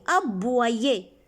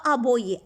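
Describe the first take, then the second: First: "Aboyer" said a-bwa-yé, with wa; correct reading. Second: "aboyer" said a-bo-yé, plain O; wrong reading. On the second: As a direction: misread "aboyer" without the wa, a-bo-yé. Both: Shown as a demonstration. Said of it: "On ne dit pas aboyer".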